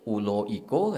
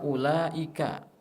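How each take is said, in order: First: The a vowels become o, Padang style. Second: The vowels are read as a, standard Quranic.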